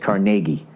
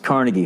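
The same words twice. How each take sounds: First: It is said the Pittsburgh way. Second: It is said the New York way. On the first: "And when you're in Pittsburgh, it's Carnegie" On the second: "when you're in New York, it's Carnegie Hall"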